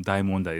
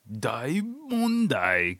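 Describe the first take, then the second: First: Said in the usual way. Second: Drawn-out, high mock TV alarm; overdramatized news. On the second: Mimicking how the Japanese news does it, slow overdramatized cry. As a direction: stretch it out like a melodramatic headline. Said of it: "dramatized movie, sh-, uh, T V show".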